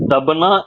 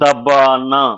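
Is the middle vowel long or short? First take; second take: short; long. First: The middle vowel is short. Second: The middle vowel is long. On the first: The speaker calls it wrong. "உச்சரிப்பு தபனா இல்லைங்கய்யா" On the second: The speaker calls it right. "இது வந்து தபானா"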